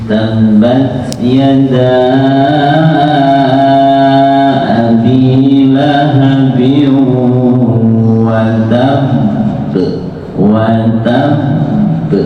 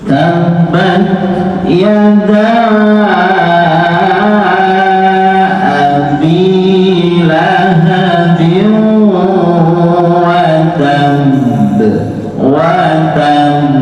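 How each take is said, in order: First: The voice rises slightly on the final word. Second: The final word is pressed without any rise. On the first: The speaker calls it wrong. "Itu kan ada suara dinaikkan ya. Itu buatan angsal. Tidak boleh ada suara naik" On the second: The speaker calls it right. "Tidak boleh ada suara naik. Berarti hanya sekedar ditekan karena tasydidnya"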